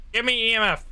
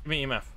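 First: Insistent demand. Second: Said in the usual way. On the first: Real, not acted. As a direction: demand it now, pushing harder. Repeated demand to the ghost.

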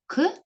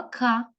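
First: К as a bare consonant, not its letter name; sound of к. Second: К said as its name, "ka"; name the letter к with an open a. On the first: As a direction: release к with a short neutral vowel. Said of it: "Звук к". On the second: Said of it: "буква к". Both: Shown as a demonstration.

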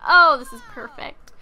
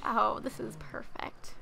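First: Loud happy gush; excited sim voice. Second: A breathy whispered gush; soft whispered glee. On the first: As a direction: blurt it out, thrilled. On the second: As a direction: whisper it to yourself in delight. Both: Retold or imitated.

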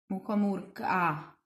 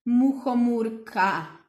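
First: "muchomůrka" softer, last a lengthened; final a held. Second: "muchomůrka" said slowly with the final a drawn out; stretched ending. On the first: Teacher lets the final a of "muchomůrka" ring. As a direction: hold the a at the end. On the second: Teacher stretches the last sound of "muchomůrka". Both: Shown as a demonstration. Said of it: "A co je na konci?".

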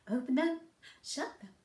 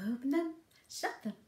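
No difference in how they are said.

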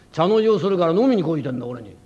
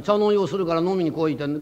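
First: 「飲みに来いてんだ」を大きめの声で力む; 「茶の湯」を慌てて言い立てる; 力んで言い立てる. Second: Said in the usual way. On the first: Acted. 亭主が女房に言い立てる. (女房に向かって「茶の湯をするから飲みに来いてんだ」と大きめに言い立てる)

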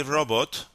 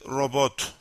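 First: "robot" stressed on the first syllable; English stress on robot. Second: "robot" stressed on the second syllable; Turkish stress on robot. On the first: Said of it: "In English you say robot". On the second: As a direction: put the weight on the last syllable of "robot". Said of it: "stress is on the second syllable". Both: Shown as a demonstration.

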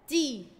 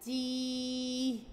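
First: "تي" as one short, loud syllable; short vowel. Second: "تي" with the ee held long and level; long vowel. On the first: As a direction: cut the i of "تي" short. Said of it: "الحركات القصيرة بتتنطق على طول بسرعة". ("تي" بكسرة قصيرة وسريعة) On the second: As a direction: stretch out the vowel of "تي". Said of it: "بعديها مد بالياء فهتبقى". ("تي" ممدودة بالياء) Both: Shown as a demonstration.

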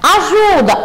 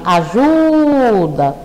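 First: Said in the usual way. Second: Ajuda drawn out, the middle syllable JU held long; slow stress on penult. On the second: Shown as a demonstration. Teacher to pupils: ajuda stretched slowly, stress on ju. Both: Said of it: "Ajuda é uma palavra paroxítona".

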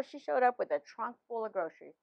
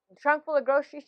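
First: Said in the usual way. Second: "A trunk full of groceries" repeated higher and louder, stress on "trunk"; amazed emphasis. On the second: Real, not acted. Wife telling husband about the gift, amazed stress on "trunk". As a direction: lift "trunk" in wonder.

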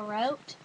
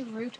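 First: Route, rhyming with out; route as "rout". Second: Root, rhyming with boot; route as "root". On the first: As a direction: say route with an ow vowel. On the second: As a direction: say root with an oo vowel. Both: Shown as a demonstration. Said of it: "It could be root or route".

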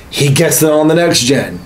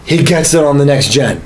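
The two takes are said the same way.

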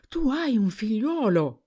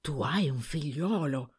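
First: Higher and louder, disbelief bursting out; the news finally sinks in, exclaim it; astonished outburst. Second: Stunned murmur. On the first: Husband realising his wife has a son, astonished outburst. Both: A narrator's reading. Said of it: "non faceva che ripetere".

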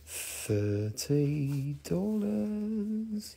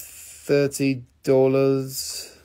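First: Very slow, hushed, stretched words; drawn-out price tease. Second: Said in the usual way. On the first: Pretend. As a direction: stretch THIRTY DOLLARS out long and softly. Price repeated as teasing hurry-up.

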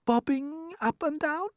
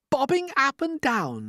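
First: Very high, slow, rising question; murmured worry. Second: Crying out. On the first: Ladybird uneasy about their motion, high timid question. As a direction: ask it timidly in falsetto. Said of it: "murmured the ladybird". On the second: Everyone echoing the ladybird, high incredulous cry. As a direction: throw it back in disbelief, falling at the end. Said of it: "they cried". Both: A narrator's reading.

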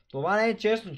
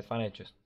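First: Outraged protest. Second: Said in the usual way. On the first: Real, not acted. Protesting a game result.

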